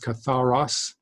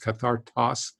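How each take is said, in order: First: No t sound comes before the last syllable. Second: A t sound comes before the last syllable. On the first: The speaker calls it right. "It's katharos" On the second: The speaker calls it wrong. "I think I mispronounced it in a previous lesson as kathartos"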